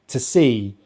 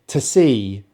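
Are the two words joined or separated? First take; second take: joined; joined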